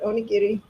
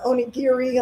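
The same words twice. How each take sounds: First: It is said with a Japanese pronunciation. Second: It is said in a common anglicized way. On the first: The speaker calls it right. "but onigiri" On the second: The speaker calls it wrong. "a lot of people call it"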